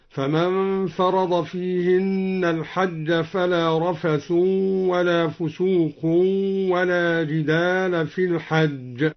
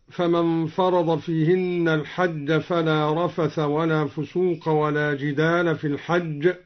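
First: Slow recitation, رفث as "rafathun", فسوق as "fusuqun"; raised ending with tanwin. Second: Said in the usual way. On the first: Shown as a demonstration. Teacher showing al-Duri's reading, "-un" on رفث, فسوق. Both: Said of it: "قرأ الدوري بالرفع والتنوين".

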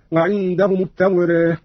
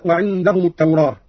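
First: التوراة with the long a half-inclined to e; taqlil vowel. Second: Said in the usual way. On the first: Shown as a demonstration. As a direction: say التوراة as "at-tawreh", final a tilted toward e. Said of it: "بالفتح والتقليل هكذا". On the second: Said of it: "قرأ قالون بالفتح والتقليل".

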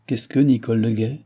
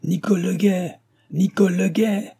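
First: Said in the usual way. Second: High-pitched holler for someone far off; raised, urgent servant's call; calling out at full lungs. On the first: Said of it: "avec la même tranquillité". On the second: A narrator's reading. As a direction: shout the name across the yard. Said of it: "en criant de toute la force de ses poumons".

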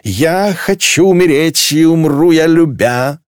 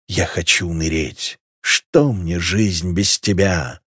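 First: High, slow, drawn-out wail; drunken wailing. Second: Low, slow understated moan; moaning song. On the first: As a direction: belt out a tipsy love lament. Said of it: "к стонам присоединилась Клелия". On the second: Марсель moans a song of rejected love, slow and moaning. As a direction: groan out a lovelorn lyric. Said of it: "стонал Марсель". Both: A narrator's reading.

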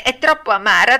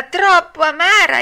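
First: Higher, louder puppet whine; acted complaint. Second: Much higher, loud hammed-up wail; escalated acted complaint. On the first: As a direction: protest the bitter taste. Pinocchio complains of the bitter medicine. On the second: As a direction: wail it like a spoilt puppet.

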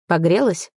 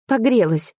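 First: "Погрелась" as a brief, even-toned check; checking question. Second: ПОГРЕЛАСЬ higher, then falling; "Погрелась" as a higher-voiced confirmation; answering statement. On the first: Acted. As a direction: ask "Погрелась" casually in usual pitch. Partner asks, she answers with same word. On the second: She answers with the same word.

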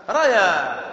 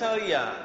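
First: "ريا" said "rayaa", fatha on the ر; correct vowel. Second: "ريا" said "riyaa", kasra on the ر; mistaken vowel. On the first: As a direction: open short a after ر in "ريا", then long aa. («ريا» بفتح الراء) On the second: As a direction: put an i sound after ر in "ريا". («ريا» بكسر الراء) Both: Shown as a demonstration. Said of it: "وليس ريا".

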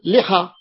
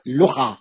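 First: لحى said "liha", short i after the lam; kasra on first letter. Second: لحى said "luha", short u after the lam; damma on first letter. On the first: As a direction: open لحى with an i vowel, "li-HA". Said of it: "فعلة المفروض نقول لحى". (لحى بكسر اللام) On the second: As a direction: open لحى with a rounded u vowel, "lu-HA". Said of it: "هو اللي سمع لحى". (لحى بضم اللام) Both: Shown as a demonstration.

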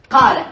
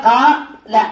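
First: Said in the usual way. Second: "قا-، لا" broken into two syllables with a pause; syllable split. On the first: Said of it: "انظر الآن". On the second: Shown as a demonstration. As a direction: hold the long alif in "قا", stop, then add "لا". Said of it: "الألف ساكنة".

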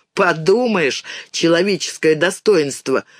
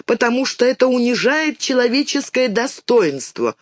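First: Put-on scornful boy echoing the phrase; mildly sneering echo, ordinary pitch; mocking repeat. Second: Put-on higher-pitched girl reciting mother's words; child's earnest recitation, pitched up; reciting by heart. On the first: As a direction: dismiss it with mild mockery. Boy mocks the girl's phrase. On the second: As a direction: recite it importantly, like a learned phrase. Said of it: "наизусть повторила мамины слова". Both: A narrator's reading.

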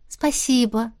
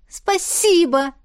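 First: Brief, restrained thanks; understated girlish gratitude; modest thanks. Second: High, slow drawn-out thanks; gushing gratitude, pitched way up; overjoyed thanks. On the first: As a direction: say a simple thank-you without gushing. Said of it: "снова поблагодарила девушка". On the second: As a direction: stretch it out with girlish delight. Overjoyed girl thanks him. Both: A narrator's reading.

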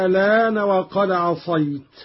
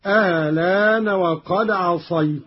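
First: الآن recited "aa-laan", long opening vowel, no second glottal stop; ibdal with naql. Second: الآن recited with a short, softened second hamza, then "laan"; tas-hil with naql. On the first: Teacher showing Qalun's ibdal in الآن, long first vowel. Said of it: "فيها الإبدال". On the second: Teacher showing Qalun's tas-hil in الآن, short softened opening. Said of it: "وفيها التسهيل مع القصر مع النقل". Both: Shown as a demonstration.

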